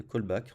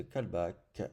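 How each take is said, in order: First: "callback" with English first vowel, "coll-back"; English pronunciation. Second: "callback" with French vowels, "calbac"; French accent. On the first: Shown as a demonstration. Developer correcting his French pronunciation, English accent. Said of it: "De callback en anglais". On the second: Real, not acted. Developer reading out a setup field, French accent. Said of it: "j'ai pris l'accent, euh, l'accent français".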